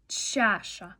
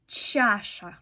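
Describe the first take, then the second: No difference in how they are said.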